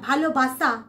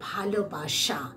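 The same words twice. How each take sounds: First: The middle consonant is a plain 's' sound. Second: The middle consonant is an 'sh' sound. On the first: The speaker calls it wrong. "আমরা যদি বলি ভালোবাসা, হবে না" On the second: The speaker calls it right. "তবুও তালবেশ স এরই উচ্চারণ"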